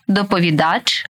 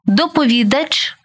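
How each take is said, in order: First: ДоповіДАЧ, stressed on the final syllable; stress on last syllable. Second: ДопоВІдач, stressed on ВІ; stress on third syllable. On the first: Teacher showing variant stresses to student, final stress on доповідач. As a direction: land on ДАЧ in доповідач. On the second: Teacher showing variant stresses to student, stress on ВІ in доповідач. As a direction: punch ВІ in доповідач. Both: Shown as a demonstration. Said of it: "Такий наголос ще називають варіантним".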